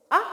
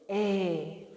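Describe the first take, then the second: First: A said as a short clipped ah like in apple; short a sound. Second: A said as a long ay, its name; long A sound. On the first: Teacher contrasting short a with long A. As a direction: give the short vowel a. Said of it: "short A is". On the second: Teacher contrasting long A with short a. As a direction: give the long vowel A. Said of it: "long A is". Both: Shown as a demonstration.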